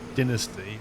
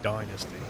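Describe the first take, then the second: First: It is said with an English pronunciation. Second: It is said with an American pronunciation. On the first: "The English more tend to say dynasty" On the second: "the Americans do definitely say dynasty"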